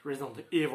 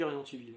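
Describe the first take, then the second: First: Put-on "Resident Evil" with an English accent, louder, the L dropped; mock-English "Resident Evil", swallowing the final L; English accent like Yannick. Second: Put-on Resident Evil said the French way, the way he said it as a kid; "Resident Evil" in French sounds: ʀe-zi-dɑ̃ e-vil; childhood French way. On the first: Imitating his friend Yannick for viewers, "Resident Evil" in an English accent. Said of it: "mon pote Yannick quand je le dis avec l'accent anglais".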